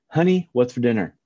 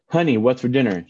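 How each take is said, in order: First: It is said in a calm, normal tone. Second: It is said in a firm, forceful voice.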